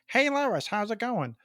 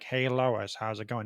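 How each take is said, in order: First: Peter Griffin's voice is said higher in pitch. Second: Peter Griffin's voice is said lower in pitch.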